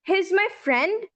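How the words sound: The voice rises at the end, like a question. It asks whether he is my friend. "तो यहाँ पर ये question बन जाता है खुद ब खुद"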